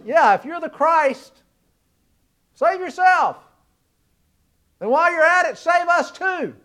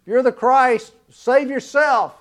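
First: Mocking sneer. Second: Jeering taunt, drawn out; the crowd mocking Jesus on the cross, sneering. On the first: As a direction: jeer at him like the crowd, pitched way up. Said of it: "this first criminal turns to him and says". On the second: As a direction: throw the taunt up at him slowly. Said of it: "the crowd mocking Jesus".

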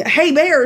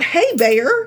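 First: Friendly hey bear. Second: Light, friendly "Hey, bear" with a rise. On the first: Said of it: "sounds like you're engaging it in a conversation". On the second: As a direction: greet the bear like a buddy. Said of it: "Not, not". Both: Retold or imitated.

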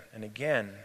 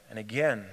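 Both takes have the same delivery.

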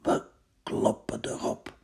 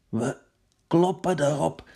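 First: Hushed, breathy-free whisper. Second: Firm call. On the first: Odysseus whispers the attack plan to his men, hushed. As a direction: whisper the order. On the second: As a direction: rouse them for the attack. Same words louder. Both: Acted.

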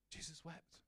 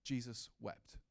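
First: Much softer, let the words sink in; soft, hushed repeat. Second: Said in the usual way. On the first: Shown as a demonstration. Preacher repeating the verse to the church, softly. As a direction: breathe Jesus wept almost under the breath. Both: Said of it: "and it says this".

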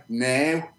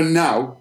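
First: "now" said as a drawn-out "neh". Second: Said in the usual way. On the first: Shown as a demonstration. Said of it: "we say". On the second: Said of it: "we say now".

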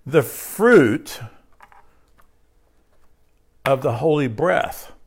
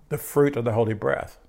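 First: Each part set apart by long pauses; slow emphatic phrase. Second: Said in the usual way. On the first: Shown as a demonstration. Pastor to congregation, slow and weighty. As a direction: pastor lays out the phrase slowly, as a weighty teaching. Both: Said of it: "Listen to this".

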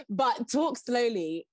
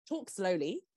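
First: Drawn-out, deliberately slow; slow right down to show it. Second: Said in the usual way. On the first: Shown as a demonstration.

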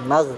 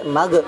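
First: Magh ending on a held gh; correct unbounced gh. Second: Magh with a popped extra vowel, 'ma-ge'; mistaken bounce. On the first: Teacher giving the right form, dragged gh ending Magh. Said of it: "Yang benar". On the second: Teacher showing what to avoid, echoed ending on magh. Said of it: "jangan sampai". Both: Shown as a demonstration.

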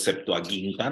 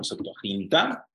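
First: SEPTUAGINTA with hard g, "Septuaguinta". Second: SEPTUAGINTA with throaty h, "Septuajinta"; soft Spanish G. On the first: Teacher giving Greek-style reading, SEPTUAGINTA with hard g. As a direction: say the GIN in SEPTUAGINTA as "guin". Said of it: "es ge". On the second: Teacher showing the rejected reading, SEPTUAGINTA with "jin". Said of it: "no Septuaginta". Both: Shown as a demonstration.

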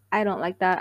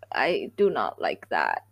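First: Said in the usual way. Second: Much lower and slow, drawn out; deep slow voice. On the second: Real, not acted. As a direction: drop the voice way down. Disliking hookup culture.

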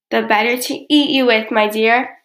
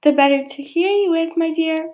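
First: Loud, menacing wolf, disguise dropped; louder threat in the narrator's own pitch; roared. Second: High-pitched wolf playing granny; high, put-on old granny reply; fake granny voice. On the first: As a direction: roar it at the girl in narration. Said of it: "roared the wolf". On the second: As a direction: sweet-talk in a high granny disguise. Wolf replies posing as granny. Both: A narrator's reading.

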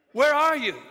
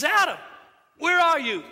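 First: Loud, raised call; God calling out. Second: Loud, high call of God searching. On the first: God calling Adam in the garden, raised call. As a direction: call out high across the garden. God's question repeated. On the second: God calling Adam from the garden, loud high call. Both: Acted.

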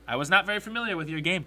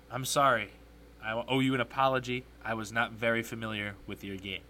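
First: Said in the usual way. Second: Lightly imitated basketball star, lower and subdued; hint of a celebrity impression, dropping low; Shaquille O'Neal. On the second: Host formally apologizing to a commentator, light low impression. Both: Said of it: "in my best Shaquille O'Neal impersonation".

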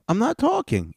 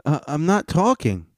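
First: Much higher, squeakier mock protest; hammed-up squeaky I'm not talking; mocking the panelist. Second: Higher, whiny mock protest; mock-whiny I'm not talking; mocking the panelist. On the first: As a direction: push the repeat way up high. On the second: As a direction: imitate him insisting, pitched up. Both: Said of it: "He goes".

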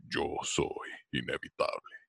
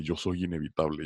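First: Lower, softer and slow Thanos impression. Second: Said in the usual way. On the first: Doing Thanos for friends at a party, lower and slow. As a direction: drop low and slow it down like Thanos. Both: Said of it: "haz la voz de Thanos".

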